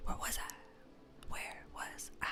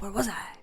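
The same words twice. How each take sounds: First: Fading into a whisper. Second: Said in the usual way. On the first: Shown as a demonstration. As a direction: drop to a breathy whisper. Repeats line fading to whisper.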